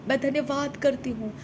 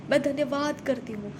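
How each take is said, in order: Both takes have the same delivery.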